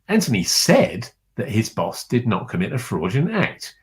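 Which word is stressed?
said. The stress is on the word said.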